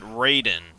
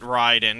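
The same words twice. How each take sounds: First: The name is said with non-Japanese pronunciation. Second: The name is said with Japanese pronunciation. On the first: This is how the game pronounces the name. The speaker calls it wrong. "They pronounce it Raiden. ... even though it's just wrong" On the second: This is the original pronunciation of the name. The speaker calls it right. "that would be the actual proper Japanese pronunciation"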